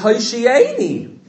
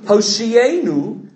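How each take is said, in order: First: The word is said in a Hasidic accent. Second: The word is said in a standard accent.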